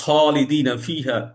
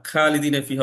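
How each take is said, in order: First: খালিদিনা ফিহা opening on a rounded "kho"; correct throaty খ. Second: খালিদিনা ফিহা opening on an open "khaa"; thin "khaa" mispronunciation. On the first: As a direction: start খালিদিনা with rough খ and an o-like vowel. (খালিদিনার শুরুতে গোল, কর্কশ খ) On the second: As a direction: start খালিদিনা with a plain aa vowel. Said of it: "খালিদিনা ফিহা বলা যাবে না". (খালিদিনার শুরুতে হালকা খা) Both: Shown as a demonstration.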